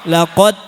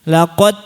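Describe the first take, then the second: Both takes have the same delivery.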